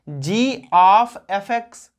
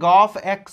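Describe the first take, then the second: First: Each letter and 'of' is said separately. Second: The letters blend into one short word. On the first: "सही से उच्चारण क्या होता है?" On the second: "साधारणतया आप गॉफ एक्स भी बोल सकते हो"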